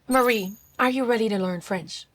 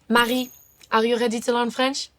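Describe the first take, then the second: First: It is spoken with plain American Rs. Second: It is spoken with soft throaty French Rs.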